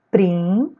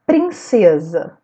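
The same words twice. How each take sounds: First: "Prin-ce-sa" in three separate syllables. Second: Said in the usual way. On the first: Shown as a demonstration. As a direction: pause between each syllable of "Prin-ce-sa". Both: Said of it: "Separei a sílaba".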